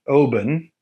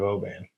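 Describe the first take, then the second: First: The A in the name is soft. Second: The A in the name is hard. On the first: The speaker calls it right. "soft A" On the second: The speaker calls it wrong. "we've all made this mistake of mispronouncing Scottish things"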